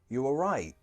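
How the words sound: The pitch goes up and then down. The asker is worried something bad happened. "the intonation goes up and down there"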